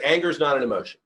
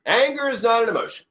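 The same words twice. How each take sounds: First: Said in the usual way. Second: "Anger" lifted much higher and pressed hard, the whole line spoken high; emphatic repeat. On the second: Shown as a demonstration.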